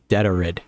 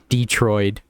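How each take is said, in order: First: The word is said with three syllables. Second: The word is said with two syllables. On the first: The speaker calls it right. "we're looking at it on the screen as Detorid" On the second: The speaker calls it wrong. "Not Detroit"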